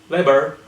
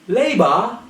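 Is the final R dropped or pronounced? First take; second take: pronounced; dropped. First: The final R sound is pronounced. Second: The final R sound is dropped. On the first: The speaker calls it wrong. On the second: The speaker calls it right.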